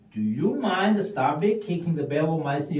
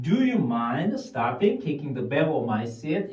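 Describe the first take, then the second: First: Slow, clear English model sentence; slow drill. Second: Slow, words run together as one; slow linked drill. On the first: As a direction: say each word of the request slowly and clearly. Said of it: "미국 사람들 보면은". (천천히 또박또박 읽는 예문) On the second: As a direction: link the words smoothly, slowly. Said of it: "어떤 사람은". (단어를 이어서 천천히 말하기) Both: Shown as a demonstration.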